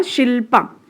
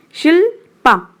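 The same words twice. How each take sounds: First: Said in the usual way. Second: Shilpa in two higher, separated beats; split into syllables. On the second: Shown as a demonstration. Teacher giving a name example, Shilpa split in two. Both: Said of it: "example दे रही हूँ name का".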